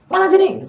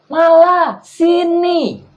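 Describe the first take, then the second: First: The phrase is spoken quickly. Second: The phrase is spoken slowly and drawn out. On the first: Far listeners only catch the end of it. The speaker calls it wrong. "kalau kita ngomong terlalu cepat walaupun volumenya tinggi, itu kesannya cuman yang ditangkap cuman belakangnya doang" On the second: Far listeners catch every word. The speaker calls it right. "Tapi harus malah sini. ... Dan diulur"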